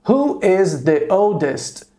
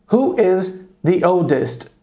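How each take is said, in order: First: Slow, careful model question. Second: Slow, careful repeat of the question; slow model question. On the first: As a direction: say it slowly for students to repeat. (pergunta modelo bem devagar) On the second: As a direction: repeat it slowly for the class. (pergunta modelo repetida devagar) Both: Shown as a demonstration. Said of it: "Eu poderia perguntar".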